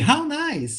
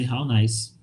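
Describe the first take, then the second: First: It is said with lively, expressive intonation. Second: It is said flatly, without lively intonation. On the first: The speaker calls it right. "You gotta give this intonation so that you convey meaning" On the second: The speaker calls it wrong. "they're not going to say, how nice. Like this"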